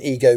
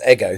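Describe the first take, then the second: First: The name is read the way it is spelled. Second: The name is said unlike its spelling suggests. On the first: The speaker calls it wrong. "It may be written Ego" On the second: The speaker calls it right. "but it's pronounced Ego"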